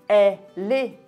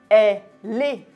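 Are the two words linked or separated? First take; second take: linked; linked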